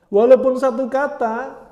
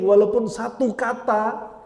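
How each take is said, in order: First: Walaupun satu kata louder, higher and slow; preacher stressing even one word matters; emphatic repeat. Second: Said in the usual way. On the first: Shown as a demonstration. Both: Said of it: "repeats phrase for emphasis".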